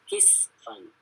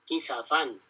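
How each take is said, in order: First: No vowel is sounded between the s and f. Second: A vowel is sounded between the s and f. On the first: This is the other readers' reading in two chapters. "Selain Hafs itu di surat Sabah dan Syu'ara baca dengan kisfan" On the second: This is one reader's reading in two chapters. "dibaca oleh Hafs dengan harokat kisafan"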